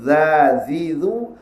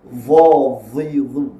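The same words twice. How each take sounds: First: "Dha, dhi, dhu" thin, tongue flat away from the palate; open light sound. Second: "Dha, dhi, dhu" thick, tongue arched to the palate; closed full sound. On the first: Teacher shows the opposite quality, open light "Dha, dhi, dhu". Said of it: "bunyi membuka". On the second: Teacher contrasts it with the open sound, closed heavy "Dha, dhi, dhu". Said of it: "bunyi yang mengatuk". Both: Shown as a demonstration.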